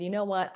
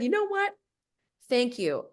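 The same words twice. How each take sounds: First: Said in the usual way. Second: A sudden high, clipped "thank you" that ends the talk; curt brush-off. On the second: Retold or imitated. Retelling the call, she ends it with him in a high, pointed voice.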